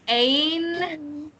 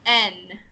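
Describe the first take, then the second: First: The vowel is 'ay', gliding toward 'ee'. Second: The vowel is a short flat 'eh'. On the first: The speaker calls it right. "say ain" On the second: The speaker calls it wrong. "instead of N"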